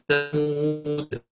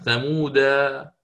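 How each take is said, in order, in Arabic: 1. تنتهي الكلمة بالحرف الساكن d. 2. تنتهي الكلمة بالألف الممدودة 'a'. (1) "وحال الوقف سوف يأتي بالحذف ثمود هكذا" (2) "وبالإثبات وقفة ثمودا هكذا"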